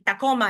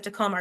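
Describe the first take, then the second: First: Tacoma with Spanish vowels; Spanish accent. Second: Said in the usual way. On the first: Shown as a demonstration. Lecturer showing a news anchor's Spanish-origin place name, Spanish accent. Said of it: "with a Spanish accent". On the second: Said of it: "instead of Tacoma".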